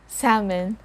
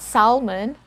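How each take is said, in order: First: The L sound is not pronounced. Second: The L sound is pronounced. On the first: The speaker calls it right. "We don't sound the letter L here" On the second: The speaker calls it wrong. "So it's not salmon"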